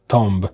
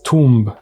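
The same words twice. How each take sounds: First: The vowel is short, as in Tom. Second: The vowel is long, as in room. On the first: The speaker calls it wrong. "not tomb" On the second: The speaker calls it right. "it was tomb and not tomb"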